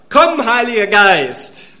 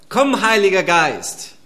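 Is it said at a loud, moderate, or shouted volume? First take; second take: loud; moderate. First: It is called louder than before. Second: It is called at moderate volume.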